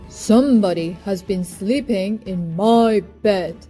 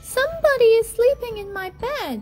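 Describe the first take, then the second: First: It is said in a great big voice. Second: It is said in a wee little voice.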